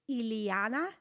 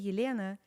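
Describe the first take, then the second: First: The name is said with an overdone, strained L. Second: The name is said with a Russian soft L. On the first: Someone is trying too hard to say it correctly. The speaker calls it wrong. "they work so hard on it that they say Iliana" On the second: This is how the name sounds in her own language. The speaker calls it right. "when I say Yelena"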